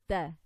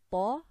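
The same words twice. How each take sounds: First: Ta off the tongue tip with a thin a; light ta. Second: Ta with tongue raised and a dark a; heavy full-mouth ta. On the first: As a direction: say ta lightly, a as in apple. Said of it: "what differentiates them". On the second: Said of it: "is a heavy letter". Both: Shown as a demonstration.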